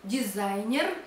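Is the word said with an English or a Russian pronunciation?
Russian. It is said with a Russian pronunciation.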